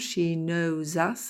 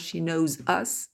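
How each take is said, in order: First: 'Knows' and 'us' are linked together smoothly. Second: 'Knows' and 'us' are said separately, unlinked. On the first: The speaker calls it right. "Vous entendez la liaison" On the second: The speaker calls it wrong. "c'est pas « she knows us »"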